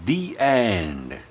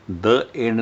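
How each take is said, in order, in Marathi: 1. 'The' चा उच्चार दीर्घ 'thee' स्वराने होतो. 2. 'The' चा उच्चार छोट्या 'thuh' स्वराने होतो. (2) "आता इथून पुढे द एंड नाही म्हणायचं"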